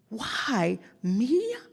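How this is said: It sounds amazed and delighted, with a gasp.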